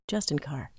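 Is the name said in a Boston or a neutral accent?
neutral. The name is said in a neutral accent.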